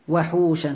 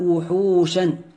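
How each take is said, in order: First: The first vowel is an open 'a' sound. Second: The first vowel is a rounded 'u' sound. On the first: The city is found empty. "ضبطه بفتح الواو وحوشا هكذا" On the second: The city is found full of wild beasts. "الضبط الثاني"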